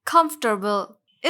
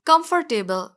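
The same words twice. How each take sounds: First: कंफर्टेबल shortened to KUMF-ter-bul; correct pronunciation. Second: कंफर्टेबल as com-for-TAY-bul; wrong pronunciation. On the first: Teacher corrects the word, clearly pronounced. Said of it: "इसका correct pronunciation होगा". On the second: Teacher shows learners the mistake, mispronounced. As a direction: say कंफर्टेबल with a full "table". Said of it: "जी नहीं". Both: Shown as a demonstration.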